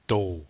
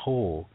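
First: It starts with a plain d sound. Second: It starts with a plain t sound. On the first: "If you say it with a D, it's do" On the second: "It starts with a T, but it's not to"

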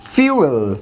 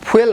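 First: A y glide comes before the vowel. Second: No y glide comes before the vowel. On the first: The speaker calls it right. "এই শব্দটার সঠিক উচ্চারণ কিন্তু ফিউয়েল" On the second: The speaker calls it wrong. "ফুয়েল না"

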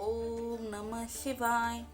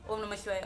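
First: The mantra is said slowly. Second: The mantra is said quickly. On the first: The speaker calls it right. "एकदम सावकाश म्हणायचं आहे" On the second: The speaker calls it wrong. "असं नाही"

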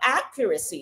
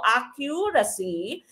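First: The stress is on the first syllable. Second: The stress is not on the first syllable. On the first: The speaker calls it right. "your stress is on the first syllable" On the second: The speaker calls it wrong. "hindi po accuracy"

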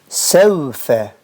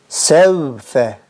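The two takes are said the same way.

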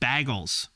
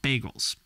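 First: It is said in a Cleveland accent. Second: It is said in the speaker's plain accent.

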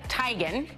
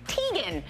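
First: The name is said the owner's own way. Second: The name is said the common way. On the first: This is how the person herself says her name. The speaker calls it right. "She says it's pronounced, like I just said it" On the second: This is how most people say the name. The speaker calls it wrong. "I've always pronounced it like everyone else"

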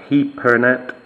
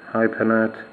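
First: The name is said with a Hungarian pronunciation. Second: The name is said with an English pronunciation.

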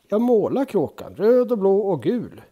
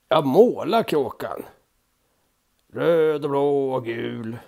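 First: It is said imitating the character's voice. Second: It is said in a plain, unimitated voice.

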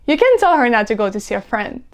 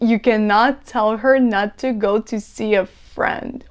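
First: The words are run together and reduced. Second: Each word is said separately and fully. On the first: The speaker calls it right. "It's better if you say" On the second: The speaker calls it wrong. "Oh my God, it's so long"

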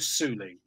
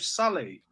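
First: The first vowel sounds like 'oo'. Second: The first vowel sounds like 'uh'. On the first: The speaker calls it wrong. "You wouldn't go Sully" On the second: The speaker calls it right. "The U makes an U sound. You'd go Sully"

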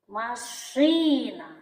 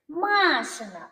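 First: The stress is on the second syllable. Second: The stress is on the first syllable. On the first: It means a car. "Звук «і» буде головним" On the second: It means belonging to a girl named Masha. "Звук «а» позначаємо знаком наголосу"

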